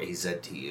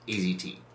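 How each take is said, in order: First: The letter Z is said the Canadian way. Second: The letter Z is said the American way.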